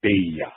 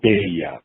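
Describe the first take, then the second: First: The first syllable has an 'eh' vowel. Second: The first syllable has an 'eh' vowel.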